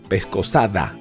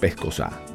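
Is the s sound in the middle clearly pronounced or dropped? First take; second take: pronounced; dropped. First: The s sound is clearly pronounced. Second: The s sound is weakened or dropped.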